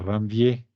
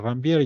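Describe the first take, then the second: First: The name is said the French way. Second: The name is said the Spanish way.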